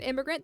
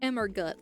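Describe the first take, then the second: First: The name ends like the word 'immigrant'. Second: The name ends with the sound 'gut'.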